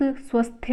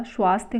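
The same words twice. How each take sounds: First: स्वस्थ with short swa; incorrect form. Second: स्वास्थ्य with long swaa; correct form. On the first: Teacher rejecting the misspelling, स्वस्थ with short vowel. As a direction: say स्वस्थ as swas-th. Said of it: "स्वस्थ नहीं होता". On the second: Teacher giving the correction, स्वास्थ्य with long aa. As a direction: say स्वास्थ्य as swaas-thya. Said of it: "स्वास्थ्य वाला शुद्ध है". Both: Shown as a demonstration.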